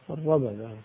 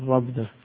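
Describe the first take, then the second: First: The 'b' is followed by a short 'a'. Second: The 'b' has no vowel after it. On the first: "المعروف المشهور بالفتح الربدة" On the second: "عندي بالسكون"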